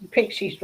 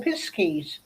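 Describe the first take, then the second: First: "pixies" said the Devon way, with the k before the s. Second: "piskies" said the Cornish way, with the s before the k. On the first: Explaining Devon folklore to friends, "pixies" with the k first. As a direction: say "pixies" as in Devon, "pick-seez". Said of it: "we call pixies". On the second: Contrasting Cornwall with Devon for friends, "piskies" with the s first. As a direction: swap the sounds: "pisk-eez", as in Cornwall. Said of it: "In Cornwall, they call piskies". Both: Shown as a demonstration.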